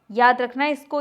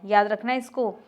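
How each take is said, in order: First: "याद रखना इसको" repeated louder, weight on "याद"; emphatic repeat. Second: Said in the usual way. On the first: Shown as a demonstration. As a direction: drive "याद" home, louder, as a warning to students.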